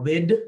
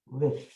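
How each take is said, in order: First: The word ends with a d sound. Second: The word ends with a th sound. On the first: The speaker calls it wrong. "or wid" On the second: The speaker calls it right. "but with"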